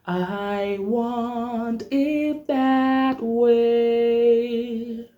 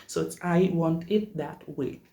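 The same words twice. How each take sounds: First: High, very slow sung I want it that way; sung line. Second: Said in the usual way. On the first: Shown as a demonstration. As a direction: sing it slow and rounded. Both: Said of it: "exercise that I usually teach".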